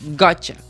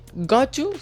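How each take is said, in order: First: The t and y blend into a ch sound. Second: The t and y are said as separate sounds.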